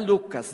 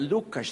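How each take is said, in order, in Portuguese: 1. O nome tem pronúncia brasileira. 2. O nome tem pronúncia europeia. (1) "Não é Lucas" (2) "lá em Portugal é Lucas"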